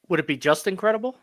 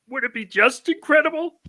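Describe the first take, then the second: First: It is said in his normal voice. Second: It is said in a Kermit the Frog voice.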